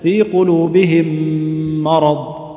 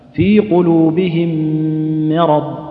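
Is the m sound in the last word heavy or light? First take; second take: heavy; light. First: The m sound is heavy and thick. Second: The m sound is light and thin. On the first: The speaker calls it wrong. "اللي ما يحترز وش يقول؟ ... وهذا خطأ" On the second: The speaker calls it right. "ما مرققة بالشكل هذا"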